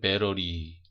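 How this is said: It is said with an American accent. "미국 사람들은"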